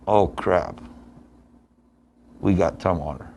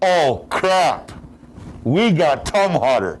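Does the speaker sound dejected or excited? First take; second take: dejected; excited. First: The voice sounds dejected and deflated. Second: The voice sounds excited and energetic. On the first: Facing this opponent is bad news. The speaker calls it wrong. "the first way" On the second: Facing this opponent is a welcome challenge. The speaker calls it right. "let's go"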